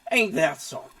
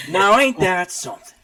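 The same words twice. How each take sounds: First: Southern drawl. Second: Louder, higher hammed-up Southern exclamation; over-the-top country accent; Southern drawl. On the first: Acted. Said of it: "I can't do it with Aurelius". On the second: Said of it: "I'm gonna keep doing it".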